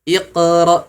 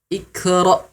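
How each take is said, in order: First: The q has only a thin bounce. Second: The q is replaced by a plain k sound. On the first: "dilafalkan dengan pantulan yang kurang tebal" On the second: "tertukar dengan huruf kaf"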